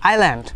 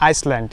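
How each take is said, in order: First: No s sound is heard in the middle. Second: An s sound is heard in the middle. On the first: The speaker calls it right. "it's also called island" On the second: The speaker calls it wrong. "it's not Iceland"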